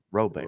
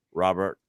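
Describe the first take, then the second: First: "Robert" said French-style as roh-BEAR, final t silent; "Robert" ending in an open "bear" sound, no t; French-style pronunciation. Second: Said in the usual way. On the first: Shown as a demonstration. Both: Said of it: "pronounced Robert".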